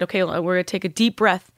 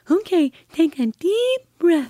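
First: Said in the usual way. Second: Put-on much higher, slow, child-like voice of her little girl; imitating her daughter. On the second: Mother imitating her young daughter's voice, high-pitched child voice. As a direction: mimic the girl's cleft-palate voice, high and slow. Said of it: "And she sounded just like that because of her".

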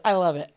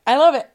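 First: Said in the usual way. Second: Louder, gleeful "I love it"; excited. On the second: Real, not acted. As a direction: punch it out with delight.

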